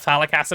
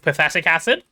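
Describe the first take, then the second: First: The first word sounds like 'phallic'. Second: The first word sounds like 'pathetic'. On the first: The speaker calls it wrong. "We don't call it phallic acid around here" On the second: The speaker calls it right. "It's pathetic acid with that kind of spelling"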